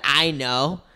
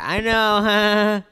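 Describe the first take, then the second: First: It is said in a rude, dismissive tone. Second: It is said in a friendly, harmless tone.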